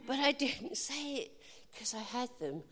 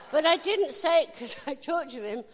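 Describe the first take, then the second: First: I lifted a little, rest fading; stress on I. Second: I pitched high and loud; stress on I. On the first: Preacher repeating the point, I lifted slightly, then softer. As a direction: lean on I in didn't, then drop away. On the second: Preacher stressing I in didn't, higher and louder. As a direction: punch the word I in didn't. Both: Shown as a demonstration. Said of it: "I said it 'cause he said so".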